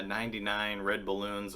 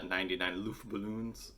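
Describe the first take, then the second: First: Said in the usual way. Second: Lightly attempted German accent; softer, half-hearted bad German accent; terrible German accent. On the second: Host giving the German song title, terrible German accent. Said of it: "which is a terrible German accent".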